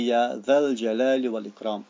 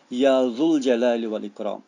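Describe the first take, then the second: First: The vowel after 'dh' is an 'a' sound. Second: The vowel after 'dh' is a 'u' sound. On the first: The speaker calls it right. "dhu is changed into dha. So we say" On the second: The speaker calls it wrong. "It is wrong to say"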